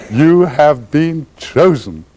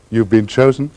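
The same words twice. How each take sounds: First: Very slow, laughing through each word; laughing, drawn out. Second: Lightly voiced grand beggar, welcoming; smiling welcome. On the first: Acted. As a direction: savour it while laughing. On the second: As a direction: offer it like a gracious host, with a smile. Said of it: "just smile with a welcome and say".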